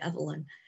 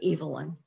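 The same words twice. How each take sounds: First: The name is said the American way. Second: The name is said the British way. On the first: "when I'm here in this country, I say Evelyn" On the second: "The Brits would say Evelyn"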